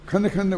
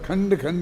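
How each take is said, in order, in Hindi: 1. नासिक्य ध्वनि को आधा कर दिया जाता है। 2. नासिक्य ध्वनि को पूरी लंबाई में रखा जाता है। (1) "खंड खंड बोलना पड़ेगा" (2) "खंड खंड नहीं बोल सकते"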